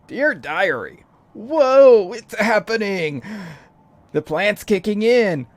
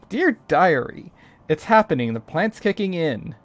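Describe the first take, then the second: First: It is read in a put-on stoner voice. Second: It is read in his normal voice.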